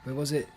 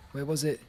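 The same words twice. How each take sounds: The two takes are said the same way.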